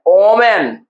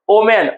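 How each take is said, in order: First: women sounded out in two parts, with a long ओ then मेन; teacher sounding out women as "ओ, मेन"; drawn-out syllables. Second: Said in the usual way. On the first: Shown as a demonstration. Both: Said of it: "यहाँ पर हमारा देखिए दो part है".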